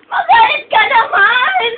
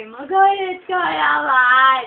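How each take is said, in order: First: High, loud, slow mock demand; exasperated high holler, played up; shouted plea. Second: Very slow, stretched mock demand; long-drawn playful nagging; drawn-out plea. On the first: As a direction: beg loudly with each word stretched. Begging Ichiro to get angry. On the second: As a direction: drag out every word as you plead. Begging again, words dragged out.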